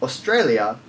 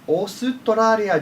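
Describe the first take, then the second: First: It is said with an English pronunciation. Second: It is said with syllable-by-syllable Japanese pronunciation. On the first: The speaker calls it wrong. "It's not pronounced Australia or Australia" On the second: The speaker calls it right. "the Japanese use a very syllabic word set"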